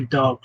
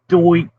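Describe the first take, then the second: First: It is said with a plain, neutral accent. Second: It is said with a thick New York accent. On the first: "I'm trying to say dark" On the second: "like my cousin said dark, because he he had the uh, thick New York accent"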